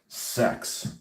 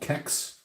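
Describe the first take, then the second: First: The name begins with a soft S sound. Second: The name begins with a hard K sound.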